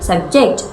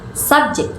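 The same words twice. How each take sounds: First: The stress is on the second syllable. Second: The stress is on the first syllable.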